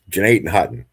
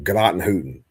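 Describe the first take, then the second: First: It is said the local way, ending 'hutton'. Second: It is said the outsider way, ending 'hooten'. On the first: The speaker is from the area. The speaker calls it right. "which nobody knows how to pronounce unless you're from here" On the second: The speaker is not from the area. The speaker calls it wrong. "if you're not from here, everybody pronounces it like"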